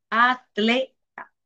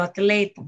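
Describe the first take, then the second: First: "atleta" drawn out slowly, broken as a-tle-ta; slow, separated "a... tle... ta"; split into syllables. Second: Said in the usual way. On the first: Shown as a demonstration. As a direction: say "atleta" syllable by syllable, keeping the tl together. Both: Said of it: "separarse en sílabas de dos maneras distintas".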